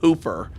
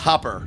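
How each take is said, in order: First: The first vowel is a long oo sound. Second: The first vowel is a short, clipped sound. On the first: This is how an outsider reads the spelling. The speaker calls it wrong. "It's spelled H O O P E R. Like anyone would be like, oh, Hooper" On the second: This is how the locals say the name. The speaker calls it right. "No, they're they're like, no, it's Hopper"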